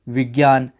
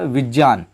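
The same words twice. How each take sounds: First: The conjunct is said like 'gy'. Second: The conjunct is said like 'jny'. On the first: This is the everyday pronunciation. "आमतौर पर ज्ञ बोलते हैं" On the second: This is the pure, correct pronunciation. "बिल्कुल विशुद्ध उच्चारण"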